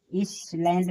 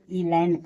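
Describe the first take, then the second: First: "इस लैंड" with an audible s; S sounded. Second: "ई लैंड" with no s; silent-s reading of "ई लैंड". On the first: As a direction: say "इस लैंड" with s before the l. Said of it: "इस लैंड नहीं". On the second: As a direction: say "ई लैंड", long ee straight into l. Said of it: "इसे ई लैंड पढ़ेंगे". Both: Shown as a demonstration.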